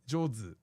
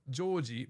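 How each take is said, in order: First: The name ends with a zu sound. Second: The name ends with a ji sound. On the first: "everyone would say Jozu" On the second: "my name is Joji"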